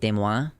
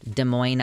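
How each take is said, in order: First: It is said with a French pronunciation. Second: It is said with a local English pronunciation. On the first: The speaker calls it right. "If you were to pronounce it in actual French" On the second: The speaker calls it wrong. "the locals pronounce it this way"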